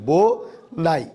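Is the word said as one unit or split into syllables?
split. The word is split into two separate syllables.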